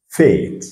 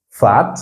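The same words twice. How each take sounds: First: "fate" with the English ay vowel, falling; long A. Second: "fat" with a short open a. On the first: Teacher drills the long sound, ay in "fate". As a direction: say "fate" like the letter name A. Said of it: "c'est son son qui est long". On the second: Teacher drills the short sound, open a in "fat". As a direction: say "fat" with a French-style ah. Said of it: "c'est le son qui est court". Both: Shown as a demonstration.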